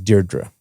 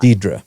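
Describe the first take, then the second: First: The name is said with the first r sound. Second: The name is said without the first r sound. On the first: The speaker calls it right. "Your name's Deirdre" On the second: The speaker calls it wrong. "I've heard people mispronounce your name"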